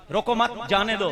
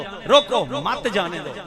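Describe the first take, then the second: First: "रोको मत" run together, then "जाने दो"; group मत with रोको, break, then say जाने दो; pause after मत. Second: "रोको" punched and cut off, then "मत जाने दो"; pause after रोको. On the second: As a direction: hit रोको, stop, then join मत to जाने दो. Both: Shown as a demonstration. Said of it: "stop लगा दे मुझे".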